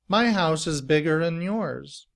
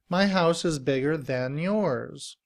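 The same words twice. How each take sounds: First: 'Than' is reduced to a weak 'un' sound. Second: 'Than' is said in full with a voiced th. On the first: "in reduced form, than becomes un" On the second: "Than uses this symbol for th, which is voiced"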